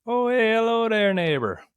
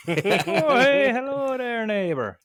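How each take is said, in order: First: High, loud cheery greeting; bright sing-song neighborly hello; video intro voice. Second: Very high, slow hammed-up greeting; exaggerated intro voice. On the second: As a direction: stretch out a goofy neighborly hello. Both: Shown as a demonstration. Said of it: "what do I do when I say the beginning of those videos".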